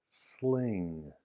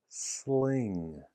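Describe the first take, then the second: Both takes have the same delivery.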